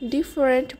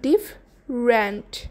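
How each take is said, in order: First: It is said with three syllables. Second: It is said with two syllables. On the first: The speaker calls it wrong. "যেটাকে প্রায়শই মানুষ ডিফারেন্ট বলে, তবে এটি সঠিক নয়" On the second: The speaker calls it right. "সঠিকটা হবে ডিফরেন্ট"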